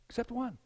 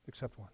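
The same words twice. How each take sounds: First: Soft but higher-pitched repeat; hushed emphasis. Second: Very soft, low drop; hushed caveat. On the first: Preacher stresses the one exception, hushed and raised. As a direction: softly lift the exception up. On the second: Preacher quietly slips in the one exception, hushed and low. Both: Real, not acted.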